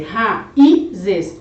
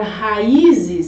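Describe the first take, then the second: First: Raízes split as ra, Í, zes; split into syllables. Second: Said in the usual way. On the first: Shown as a demonstration. Teacher separating the word, raízes syllable by syllable. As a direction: slowly say raízes in three separate beats, ra-í-zes. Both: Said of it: "se você for separar esta palavra".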